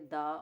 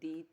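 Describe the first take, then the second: First: The word ends in a short 'uh' vowel. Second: The word ends in a long 'ee' vowel. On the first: "इसको दो तरह से pronounce किया जाता है, दा" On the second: "और दी"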